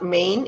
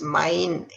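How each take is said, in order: First: The vowel is not an 'a-i' sound. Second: The vowel is an 'a-i' sound. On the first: The speaker calls it wrong. "now this one is not main" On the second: The speaker calls it right. "it's main, A I sound"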